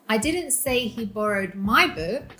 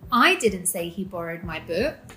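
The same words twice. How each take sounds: First: The stress falls on the word 'my'. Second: The stress falls on the word 'I'. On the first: Another person's book was borrowed. "He borrowed your book" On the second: Someone else said it. "She did"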